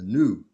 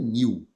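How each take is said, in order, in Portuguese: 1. É pronunciado do jeito do inglês. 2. É pronunciado do jeito do português brasileiro. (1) "é new" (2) "Não é new"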